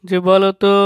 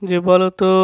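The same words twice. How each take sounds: The two takes are said the same way.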